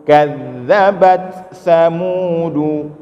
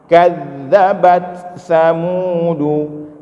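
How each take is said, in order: No difference in how they are said.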